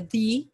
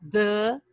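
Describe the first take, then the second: First: THE with a long ee vowel; demonstrated "thee" pronunciation of THE. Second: THE with a closed schwa; demonstrated "thuh" pronunciation of THE. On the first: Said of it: "quando a palavra seguinte for iniciada". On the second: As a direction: say THE as "thuh", as before consonants. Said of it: "quando a palavra seguinte iniciar por consoante". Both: Shown as a demonstration.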